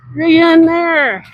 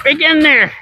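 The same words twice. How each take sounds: First: Slow, high, stretched-out call; drawn-out call. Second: High excited call. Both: Real, not acted. Calling out while riding.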